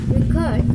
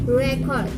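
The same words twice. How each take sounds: First: The stress is on the second syllable. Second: The stress is on the first syllable. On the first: It is a verb. "This record is a verb, so uh, the primary stress in uh, the second syllable" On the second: It is a noun. "as noun, so the uh, primary stress is uh, in the first syllable"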